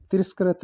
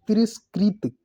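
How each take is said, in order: First: तिरस्कृत said "tiraskarat"; wrong pronunciation. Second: तिरस्कृत said high, ending "-skrit"; correct pronunciation. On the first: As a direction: say तिरस्कृत with "karat" at the end. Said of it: "तिरस्कृत नहीं". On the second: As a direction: hit "krit" in तिरस्कृत. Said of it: "री की मात्रा आएगी". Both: Shown as a demonstration.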